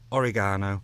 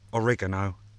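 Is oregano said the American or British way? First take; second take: British; American. First: It is pronounced the British way. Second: It is pronounced the American way. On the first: The speaker calls it right. "It's oregano, it's Italian" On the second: The speaker calls it wrong. "not oregano, like the Americans say"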